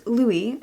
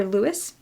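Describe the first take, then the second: First: Louis said LOO-ee, no S sound; silent S. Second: Lewis said LOO-iss, ending in S; sounded S. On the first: Reader trying out a boy's name, Louis as LOO-ee. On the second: Reader offering the other reading, Lewis as LOO-iss. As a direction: say "Lewis" with the final S heard. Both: Shown as a demonstration. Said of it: "or Lewis".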